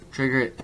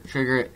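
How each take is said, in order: Both takes have the same delivery.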